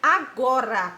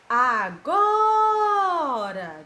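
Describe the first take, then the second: First: Said in the usual way. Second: "Agora" sung out very slowly, GO held long, loud and high; chanted "Agora" with a huge long GO; drawn-out stressed syllable. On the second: Shown as a demonstration. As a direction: call out "Agora", stretching the middle "go". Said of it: "a tia demora mais pronunciar".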